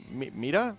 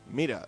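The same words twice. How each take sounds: First: "media?" softer, with a rising question tune. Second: "Media." softer, with a firm falling tune; settled statement. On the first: Host testing the word "media" aloud, questioning and soft. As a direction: try out "media?" as a doubtful question rising at the end. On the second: Host settling on how to say "media", soft falling statement. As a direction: land "Media." down flat as a decided answer. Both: Shown as a demonstration. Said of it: "testing how to say "media".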